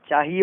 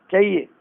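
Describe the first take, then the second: First: चाहिए begun with long "chaa"; correct long vowel. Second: चाहिए shortened to "cha-iye"; wrong short vowel. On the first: Teacher correcting it, चाहिए with long first aa. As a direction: say चाहिए as "chaahiye", h sounded. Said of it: "चाहिए होता है". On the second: Teacher showing the mistake, चाहिए as "cha-iye". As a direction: say चाहिए with short first vowel, h nearly lost. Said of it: "चाहिए नहीं होता है". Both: Shown as a demonstration.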